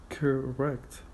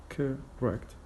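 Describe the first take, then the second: The two takes are said the same way.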